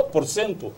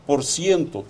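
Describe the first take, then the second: First: "cento" said as "sento"; Portuguese self-correction. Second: "cento" said as "siento"; Spanish-like slip. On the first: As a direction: say "cento" with a pure "e", no glide. ("cento" pronunciado "sento", sem ditongo) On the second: ("cento" pronunciado "siento", à espanhola) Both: Real, not acted.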